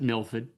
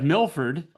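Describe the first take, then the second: First: It is said in a Massachusetts accent. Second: It is said in a general American accent.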